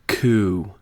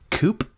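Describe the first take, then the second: First: The word ends on the vowel, no p. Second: The word ends with a p sound. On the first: The speaker calls it right. "So say that with me real quick" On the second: The speaker calls it wrong. "you said coop when you were s- trying to say coo"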